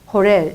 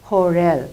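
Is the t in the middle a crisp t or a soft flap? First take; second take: soft flap; soft flap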